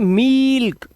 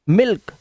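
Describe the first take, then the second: First: The vowel is drawn out long. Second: The vowel is short and quick. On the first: The speaker calls it wrong. "ये गलत हो जाएगा" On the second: The speaker calls it right. "यहां पर इसको जल्दी बोलना है"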